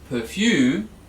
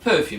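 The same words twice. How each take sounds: First: The stress is on the second syllable. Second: The stress is on the first syllable. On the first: The speaker calls it wrong. "we don't say perfume" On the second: The speaker calls it right. "perfume on the first syllable"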